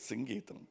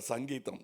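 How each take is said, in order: First: The first vowel is an 'i' sound. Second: The first vowel is an 'a' sound. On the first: The speaker calls it right. "No, it is Singeetam, please" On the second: The speaker calls it wrong. "he used to get very upset because say Mister Sangeetam"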